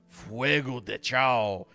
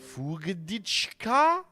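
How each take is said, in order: First: The name is said as three separate words. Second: The name is run together as one word. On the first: The speaker calls it right. "instead of doing Fuego de Chao" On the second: The speaker calls it wrong. "everyone mispronounces it"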